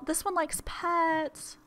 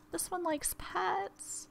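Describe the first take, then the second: First: Cutesy pet voice. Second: Softer cutesy pet voice. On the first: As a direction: coo at the bunny who likes pets. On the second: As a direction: coo it again, quieter and sweeter. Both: Real, not acted. Cooing over the rabbit.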